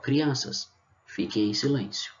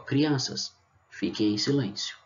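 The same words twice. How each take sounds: First: There is a pause after Crianças. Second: The same.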